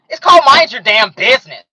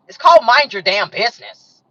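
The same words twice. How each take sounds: First: It is said in a put-on, mocking character voice. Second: It is said in her ordinary speaking voice.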